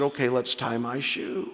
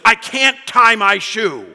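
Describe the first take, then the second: First: Softer, settled little voice; calmed-down child. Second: Put-on loud, high, slow childish wail; mock an exasperated toddler in tears; frustrated little girl. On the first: Retold or imitated. Daughter looks up at dad after her tantrum, calm and quiet. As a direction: give in quietly once the tears have dried. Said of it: "She started to breathe normally again". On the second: Dad imitates his crying three-year-old over her shoe, frustrated wail. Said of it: "She's frustrated".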